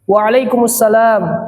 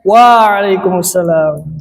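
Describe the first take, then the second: First: The opening wa sound is kept short. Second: The opening wa sound is drawn out long. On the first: The speaker calls it right. "Jawab dengan benar" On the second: The speaker calls it wrong. "Uanya jangan dipanjang-panjangkan"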